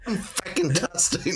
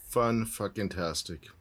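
First: It is said with more enthusiasm. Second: It is said flatly, without much enthusiasm.

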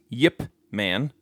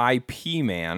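First: The name begins with a 'y' sound. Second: The name begins with a plain vowel sound. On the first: The speaker calls it right. "Josh says that it is pronounced Yip Man" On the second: The speaker calls it wrong. "IP man is not the way you say it"

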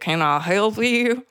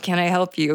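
First: It is said in a Southern accent. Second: It is said in her ordinary accent.

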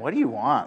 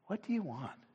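First: It sounds annoyed, as if bothered. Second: It sounds warm and welcoming.

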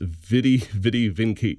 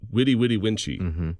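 First: The V sounds are hard and traditional. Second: The V sounds are soft, Italian style. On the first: The speaker calls it right. "It's a hard V in the traditional" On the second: The speaker calls it wrong. "are taught Italian pronunciation of Latin"

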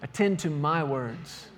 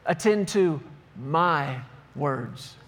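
First: No single word gets special stress. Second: The word my carries strong stress.

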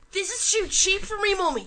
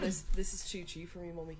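First: It is said with bratty enthusiasm. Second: It is said flatly, without enthusiasm.

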